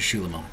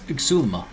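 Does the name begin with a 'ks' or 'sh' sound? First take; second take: sh; ks. First: The name begins with a 'sh' sound. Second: The name begins with a 'ks' sound. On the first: The speaker calls it wrong. "I refuse to pronounce it Xulima" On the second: The speaker calls it right. "There's an X"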